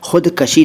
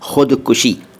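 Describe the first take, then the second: First: The second syllable has an 'a' vowel. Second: The second syllable has a 'u' vowel. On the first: The speaker calls it wrong. "खुदकशी नहीं बोलना चाहिए" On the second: The speaker calls it right. "सही शब्द है खुदकुशी"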